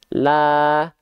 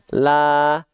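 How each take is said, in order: No difference in how they are said.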